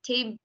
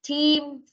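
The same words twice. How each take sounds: First: The vowel is said short. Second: The vowel is said long. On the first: The speaker calls it wrong. "Đọc như thế thì không ra âm y được nha" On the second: The speaker calls it right. "đọc dài âm ra một chút"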